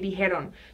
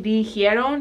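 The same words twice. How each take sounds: First: No 'ee' sound follows the j. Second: An extra 'ee' sound follows the j. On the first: The speaker calls it right. "you just say dijeron. So the I gets dropped" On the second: The speaker calls it wrong. "you don't say dijeron"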